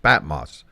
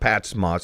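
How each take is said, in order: First: No s sound comes between the words. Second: An s sound links the two words. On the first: The speaker calls it right. "it's Pat Moss" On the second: The speaker calls it wrong. "it's not Pat's Moss"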